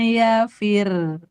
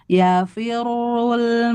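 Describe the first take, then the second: First: The r is light and the word stops. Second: The r is heavy and doubled, running on. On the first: The reading stops on this word. "kalau berhenti yauma yafir, fir tipis" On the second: The reading continues without stopping. "Kalau di wasol dia tebal"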